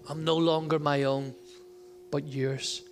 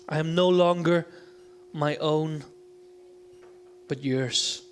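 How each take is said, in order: First: It is read at a normal pace. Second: It is read slowly.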